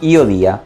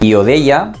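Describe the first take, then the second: First: The verb is said with one vowel dropped. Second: The verb is said with all its vowels.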